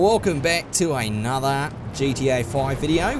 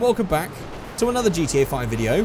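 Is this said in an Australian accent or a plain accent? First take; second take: Australian; plain. First: It is said in a put-on Australian accent. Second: It is said in the speaker's ordinary accent.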